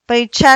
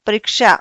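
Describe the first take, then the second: First: परीक्षा with a plain ch sound, pari-cha; परीक्षा said as paricha, no ksh; wrong pronunciation. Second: परीक्षा with a clear ksh, pari-ksha; परीक्षा with a crisp k before the sh; correct pronunciation. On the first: Teacher showing students the wrong परीक्षा, mispronounced. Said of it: "परीक्षा नहीं होता". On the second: Teacher giving students the correct परीक्षा, clearly pronounced. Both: Shown as a demonstration.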